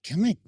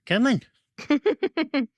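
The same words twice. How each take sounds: First: Said in the usual way. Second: Very high, drawn-out singsong call. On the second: Real, not acted. Trainer luring the dog to play, very high singsong. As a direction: sing it up high to lure the dog.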